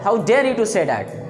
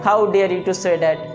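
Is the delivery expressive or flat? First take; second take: expressive; flat. First: It is said with strong, indignant emotion. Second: It is said flatly, without emotion. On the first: The speaker calls it right. "आपका expression होना चाहिए" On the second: The speaker calls it wrong. "ऐसा नहीं ... ये आपका गलत है।"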